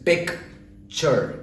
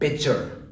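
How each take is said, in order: First: A k sound comes before the ch sound. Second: No k sound comes before the ch sound. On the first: The speaker calls it right. "The first sound is pick. Second is chur" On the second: The speaker calls it wrong. "and not pitcher"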